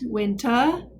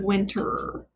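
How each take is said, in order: First: The final R is dropped, British style. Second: The final R is clearly pronounced. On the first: The speaker calls it right. "a little bit more like a British accent" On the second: The speaker calls it wrong. "instead of"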